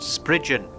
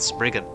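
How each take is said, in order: First: The middle consonant is a soft 'j' sound. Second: The middle consonant is a hard 'g' sound. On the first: The speaker calls it right. "the name of this creature is pronounced Spridgen" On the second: The speaker calls it wrong. "not Spriggan"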